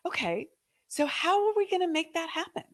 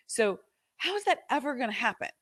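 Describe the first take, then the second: First: Bright, eager asking, much higher; energy of opportunity. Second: Doubtful, defeated asking. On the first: Coach showing the hopeful way to ask. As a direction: ask it full of possibility. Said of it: "with a different energy". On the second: Coach showing the defeated way to ask. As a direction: ask it like it can never happen. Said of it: "That is an, an energy of defeat". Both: Shown as a demonstration.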